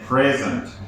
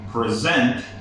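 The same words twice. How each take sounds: First: The stress is on the first syllable. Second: The stress is on the second syllable. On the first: It is a noun meaning a gift or this moment. "the stress is at the beginning of the word" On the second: It is a verb meaning to give or to show. "you put the stress at the end of the word"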